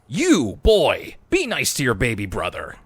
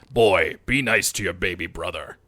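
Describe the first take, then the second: First: It is said in a normal voice. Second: It is said in a deep, Kratos-like voice.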